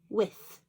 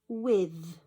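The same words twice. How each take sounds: First: The word ends with a clear 'th' sound. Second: The word ends with a sound like 'v'. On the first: "That doesn't sound right to my ears" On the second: "it sounds like a v for van"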